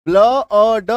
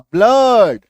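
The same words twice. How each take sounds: First: ब्ल अ ड split into separate sounds, louder; sounded out. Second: ब्लड said as one short syllable, louder and firm; blended word. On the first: Teacher breaks the word into sounds for students, slowly. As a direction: spell out ब्ल अ ड piece by piece with the hidden अ. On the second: Teacher shows students the joined word, firmly. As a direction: join it all into ब्लड with a short अ. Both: Shown as a demonstration. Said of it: "क्या इसका उच्चारण हम लोग करते हैं".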